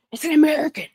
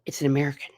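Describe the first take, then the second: First: High-pitched, thrilled relay of news; excited announcement. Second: Said in the usual way. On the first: Retold or imitated. Passenger telling the others the news, excited. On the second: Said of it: "I hear the E W T N person go".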